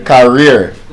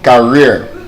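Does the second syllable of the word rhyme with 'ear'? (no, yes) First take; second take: yes; yes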